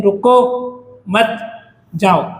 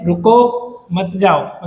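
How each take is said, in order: First: "रुको मत" together, pause, then "जाओ"; slow "रुको मत", with "जाओ" set apart; pause after मत. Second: Slow "रुको", pause, then "मत जाओ"; pause after रुको. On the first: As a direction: tell them to go: "रुको मत", break, "जाओ". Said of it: "आप जा सकते हो". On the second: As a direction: tell them to stay: "रुको", break, "मत जाओ". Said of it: "आपको रुकने के लिए बोला जा रहा है". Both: Shown as a demonstration.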